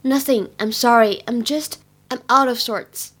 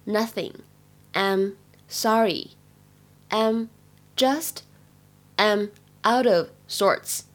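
First: Said in the usual way. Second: Slow teaching read with pauses between chunks; careful, drawn-out model reading for learners; slow word by word. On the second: Shown as a demonstration. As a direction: say it slowly, one piece at a time.

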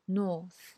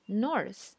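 First: British north without r; British English. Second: American north with the r; American English. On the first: Teacher shows north in a British accent. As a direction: north said "nawth", no r, British style. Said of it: "英式英语说". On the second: Teacher shows north in an American accent. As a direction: north said with a clear r, American style. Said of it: "美式英语说". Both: Shown as a demonstration.

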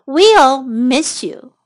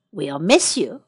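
First: WE'LL MISS YOU stretched out word by word; slow model phrase. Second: Said in the usual way. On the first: Shown as a demonstration. Teacher repeats the phrase for learners, slowly. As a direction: give each word time for learners to copy.

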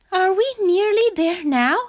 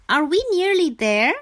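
First: High, loud, worn-out frog voice; high, out-of-breath little frog; panting. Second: High little frog asking hopefully; high-pitched question with a rising end; inquiring frog voice. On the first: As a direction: ask as if puffed from walking, high-pitched. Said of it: "panted Frog". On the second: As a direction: ask in a high childlike frog voice. Frog asks about the journey. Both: A narrator's reading.

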